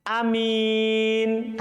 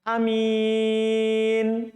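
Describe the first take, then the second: The two takes are said the same way.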